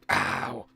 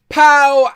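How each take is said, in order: First: It is said weakly, sounding like pain. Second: It is said with healthy, lively energy. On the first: "it sounded like I was in pain" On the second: "it does feel good to be able to say pow again"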